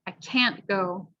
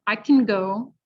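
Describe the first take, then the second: First: Slow, clear CAN'T with a full "a" vowel; stress on CAN'T. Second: "can" shortened to kin, weight on "go"; unstressed can. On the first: Teacher repeating for the vowel sound, stressed clear CAN'T. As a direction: hold can't long and clear before go. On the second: Teacher repeating for the vowel sound, can reduced to kin. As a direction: let can shrink to a quick relaxed kin. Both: Shown as a demonstration. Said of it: "listen to the vowel sound".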